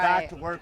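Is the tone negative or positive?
positive. It is said in a big, positive tone.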